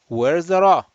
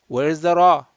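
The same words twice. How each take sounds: Both takes have the same delivery.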